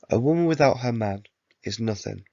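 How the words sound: There is a pause after the word man.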